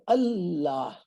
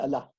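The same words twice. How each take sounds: First: The L sound is heavy and stressed. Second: The L sound is light and unstressed. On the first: The speaker calls it right. "You're stressing on the Lam here" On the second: The speaker calls it wrong. "you don't say Allah"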